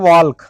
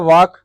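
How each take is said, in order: First: An L sound is heard before the K. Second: No L sound is heard before the K. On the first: The speaker calls it wrong. "इसको बहुत लोग बोलेंगे वॉल्क" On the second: The speaker calls it right. "इसका होता है वॉक"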